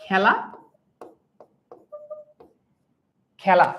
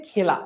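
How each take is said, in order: First: খেলা on its own with an open first vowel; open æ pronunciation. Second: The wrong, narrow-vowel reading of খেলা; teacher showing খেলা with a tight e; closed "e" pronunciation. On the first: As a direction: say খেলা as "khæla", vowel as in cat. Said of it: "উচ্চারণটা অনেকটা এভাবে করি না". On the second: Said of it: "এর উচ্চারণ এর মতো হয়". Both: Shown as a demonstration.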